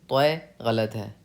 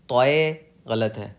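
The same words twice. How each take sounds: The two takes are said the same way.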